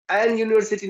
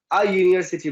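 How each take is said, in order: First: एन stressed and raised before university; rejected form, stressed. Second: अ as a short open "a", falling through university; correct form, settled. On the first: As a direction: hold up एन as the wrong article, stressing it. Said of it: "नहीं बोलेंगे". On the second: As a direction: settle downward from अ. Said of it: "बोलेंगे". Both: Shown as a demonstration.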